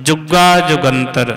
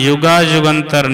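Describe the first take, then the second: First: The words begin with a heavy j sound. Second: The words begin with a y sound. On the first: The speaker calls it right. "जज्जे ला के पढ़ना है तो भारा करके बोलने हैं शब्द" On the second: The speaker calls it wrong. "युगा युगंतर नहीं कहना"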